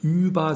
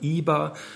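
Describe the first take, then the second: First: The first vowel is said with rounded lips. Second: The first vowel is said with spread lips. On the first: This is the standard German form. "statt über" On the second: This is the Texas German form. "dass man die Vorderzungenvokale entrundet"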